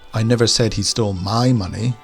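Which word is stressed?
my. The stress falls on the word my. The stolen money belonged to someone else. "he stole some money, but it wasn't mine"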